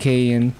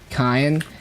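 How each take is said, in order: First: The name is pronounced the English way. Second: The name is pronounced the Korean way. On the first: "instead of saying Kain" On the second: "I'm just using the Korean pronunciation"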